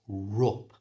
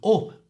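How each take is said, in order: First: The word begins with a linking R sound. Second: The word begins directly with a vowel.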